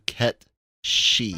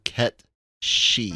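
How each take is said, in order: First: The second word is said as 'shee'. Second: The second word is said as 'shee'.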